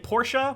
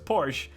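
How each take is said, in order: First: The word ends with an extra 'ah' sound. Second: The word ends without any extra vowel. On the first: This is how the presenters on stage said it. "they kept saying Porsche, which I guess is the right way to say it" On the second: This is how Americans say it. "There's not an A H on the end of the word, so it's Porsche"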